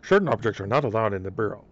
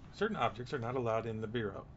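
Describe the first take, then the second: First: It is read in a put-on character voice. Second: It is read in a plain, normal voice.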